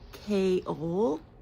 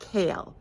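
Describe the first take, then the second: First: The vowel sounds like the one in 'coal'. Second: The vowel sounds like the one in 'kale'. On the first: "I've also been care- calling it K-ole" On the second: "I think it's Kale"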